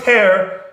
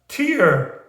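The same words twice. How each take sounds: First: The word is said as one short syllable. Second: The word is stretched into nearly two syllables. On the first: The speaker calls it wrong. "It's not tear" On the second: The speaker calls it right. "It's almost two syllables"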